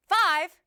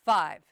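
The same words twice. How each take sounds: First: Loud, high, tense-throated projection; pitch raised with volume. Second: Loud and low-pitched projection; loud, relaxed throat. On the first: Coach showing the mistake, loud with raised pitch. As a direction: push it loud and let the pitch jump up. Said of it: "don't let your pitch go up". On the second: Coach showing the right way, loud but low. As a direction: project strongly while keeping the pitch down. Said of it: "Keep your throat relaxed". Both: Shown as a demonstration.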